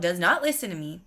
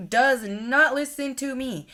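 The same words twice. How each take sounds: First: Said in the usual way. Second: "not" drawn out, higher and slower; exasperated stress on not. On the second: Retold or imitated. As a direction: hammer the word "not" in disbelief. Friend ignores her warning.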